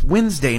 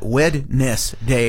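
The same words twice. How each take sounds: First: "Wednesday" said as WENZ-day, in two syllables; usual pronunciation. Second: "Wednesday" as WED-NESS-DAY, slow, every syllable separate; spelling pronunciation. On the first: Co-host correcting how the word sounds, "Wednesday" as WENZ-day. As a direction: say "Wednesday" with the first D silent. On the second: Co-host mocking the odd way, "Wednesday" slowly as WED-NESS-DAY. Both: Shown as a demonstration. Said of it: "some people do pronounce it that way".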